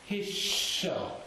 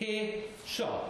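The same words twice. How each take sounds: First: The two syllables are joined by the sh. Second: The two syllables are sounded separately. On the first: The speaker calls it right. "It connects up the here to the shaw" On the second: The speaker calls it wrong. "Two separate sounds"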